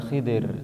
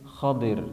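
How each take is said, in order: First: The first vowel sounds like 'i'. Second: The first vowel sounds like 'a'. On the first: This is the Indonesian reading of the name. The speaker calls it wrong. "bukan Khidir" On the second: This is the original reading of the name. The speaker calls it right. "tetapi Khadir"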